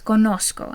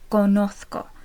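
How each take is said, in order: First: The z is pronounced as an s sound. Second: The z is pronounced as a th sound. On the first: This is the Latin American pronunciation. "the Z in conozco is pronounced like an S, ... that's if you're learning the accent from Latin America" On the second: This is the pronunciation used in Spain. "If you're learning the accent from Spain, it would be"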